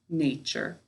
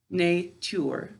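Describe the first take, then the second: First: The word is said the ordinary everyday way. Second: The word is said oddly, sound by sound.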